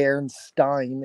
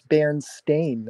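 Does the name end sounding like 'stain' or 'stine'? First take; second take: stine; stain. First: The last syllable sounds like 'stine'. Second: The last syllable sounds like 'stain'. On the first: The speaker calls it wrong. "It was never supposed to be Berenstain ... I don't know where they got the Stein from" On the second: The speaker calls it right. "it's Berenstain. I've always heard it that way"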